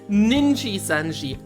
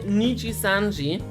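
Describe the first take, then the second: First: The name starts with ninji, with an extra n. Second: The name starts with niji, with no extra n. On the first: "he says Ninji-sanji" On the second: "Instead of saying Nichisanji"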